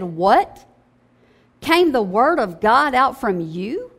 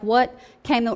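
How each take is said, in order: First: It is read with emphatic, sarcastic surprise. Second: It is read flatly without emphasis.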